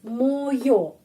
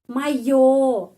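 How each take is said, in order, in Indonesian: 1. Vokal pertama terdengar seperti 'o'. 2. Vokal pertama terdengar seperti 'a'. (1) "kita menulis moyo" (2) "Moyo tapi o dibaca a"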